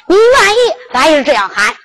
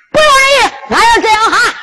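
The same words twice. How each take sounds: First: Said in the usual way. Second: Pitched up high on 不愿意, pressing the point; emphatic insistence. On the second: Acted. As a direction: insist hard, stress 愿 in 不愿意. 焦廷龙坚持称呼二哥. (焦廷龙坚决地提高嗓门喊出"不愿意")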